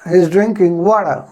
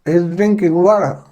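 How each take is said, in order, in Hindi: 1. "water" में t नरम है, लगभग छूटा हुआ। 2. "water" में t नरम है, लगभग छूटा हुआ।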